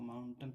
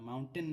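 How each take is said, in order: First: "माउंटेन" with the last vowel reduced to a schwa; short अ ending. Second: "माउंटेन" with a full ए in the last syllable, louder; rejected spelling pronunciation. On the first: Teacher giving students the correct reading, "माउंटेन" with a short अ ending. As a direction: say "माउंटेन" as MOUN-tun. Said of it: "इसको माउंटेन पढ़ते हैं". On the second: Teacher showing students what not to say, "माउंटेन" with a full ए ending. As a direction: stress a clear -ten at the end of "माउंटेन". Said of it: "माउंटेन नहीं पढ़ते". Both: Shown as a demonstration.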